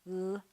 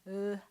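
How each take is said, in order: Both takes have the same delivery.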